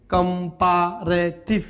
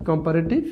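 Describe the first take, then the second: First: comparative slowly in four separate beats; syllable by syllable. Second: Said in the usual way. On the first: Shown as a demonstration. Teacher counting many syllables, slowly broken up. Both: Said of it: "পলি".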